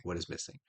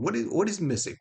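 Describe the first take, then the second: First: Low, much softer repeated question; musing to oneself. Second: High, insistent puzzled question; exasperated searching. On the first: Asking himself why the feeling is absent, musing quietly. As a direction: drop it to a private murmur. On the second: Asking himself why the feeling is absent, exasperated. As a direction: press the question, pitched up. Searching aloud for what is missing. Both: Retold or imitated.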